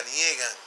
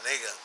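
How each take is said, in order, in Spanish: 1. La sílaba del medio se pronuncia 'nie'. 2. La sílaba del medio se pronuncia 'ne'. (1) "no es anie, ese nie lo inventó el pueblo" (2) "El verbo es anegar"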